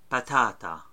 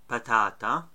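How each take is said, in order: The two takes are said the same way.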